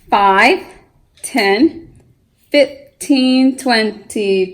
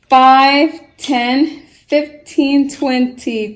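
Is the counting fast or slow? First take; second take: slow; fast. First: The numbers are counted at a slower pace. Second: The numbers are counted at a faster pace.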